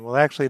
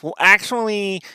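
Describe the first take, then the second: First: It is said in his normal voice. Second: It is said in a put-on nerd voice.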